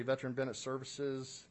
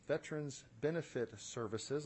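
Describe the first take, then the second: First: Hurried, run-together delivery; rushing through the words; too fast. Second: Slower, more careful wording; deliberate, measured correction; slowed-down repeat. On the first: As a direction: rattle it off too quickly. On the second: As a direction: say it over, slowly and distinctly. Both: Real, not acted. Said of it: "I'm talking too fast".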